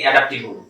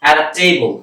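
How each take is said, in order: First: অ্যাডাপ্টেবল said the local way, ending in a plain -tibul; অ্যাডাপ্টেবল with a short flat middle, the usual local mistake; common Bangladeshi pronunciation. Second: অ্যাডাপ্টেবল said with a clear "tei" glide in the middle; অ্যাডাপ্টেবল carefully pronounced as a teacher's model; right pronunciation. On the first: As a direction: read অ্যাডাপ্টেবল as Bangladeshis usually do, not the English way. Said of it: "অ্যাডাপ্টেবল আমরা বাংলাদেশে এইভাবে পড়ে থাকি".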